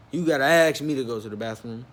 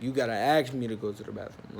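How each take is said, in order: First: Incredulous echo. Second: Said in the usual way. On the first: Retold or imitated. Storyteller questions the manager's bathroom rule, incredulous. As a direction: repeat it in disbelief, starting louder. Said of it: "that don't sound right". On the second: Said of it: "he be like".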